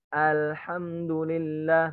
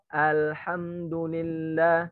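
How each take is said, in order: Both takes have the same delivery.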